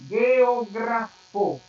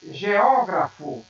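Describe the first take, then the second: First: Geografo drawn out, stressed on GRA; slow geografo with hard g, leaning on the next-to-last syllable; Esperanto stress on geografo. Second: Geógrafo with a loud, lengthened stress on Ó; Portuguese stress on geógrafo. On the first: Teacher contrasting with Portuguese, geografo stressed slowly on GRA. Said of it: "Em Esperanto". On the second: Teacher giving the Portuguese word, geógrafo stressed on Ó. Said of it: "Em português". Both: Shown as a demonstration.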